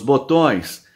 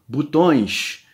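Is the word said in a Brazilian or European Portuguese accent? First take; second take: Brazilian; European Portuguese. First: It is said in a Brazilian Portuguese accent. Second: It is said in a European Portuguese accent.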